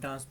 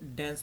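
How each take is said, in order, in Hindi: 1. इस शब्द का उच्चारण ब्रिटिश लहजे में किया गया है। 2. इस शब्द का उच्चारण अमेरिकी लहजे में किया गया है। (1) "ब्रिटिश में जो है ना वो डांस बोलते हैं" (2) "अमेरिकन एक्सेंट में उसको डांस बोलते हैं"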